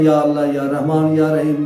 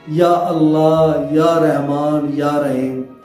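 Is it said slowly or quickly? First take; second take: quickly; slowly. First: It is said quickly, without pauses. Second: It is said slowly, with pauses.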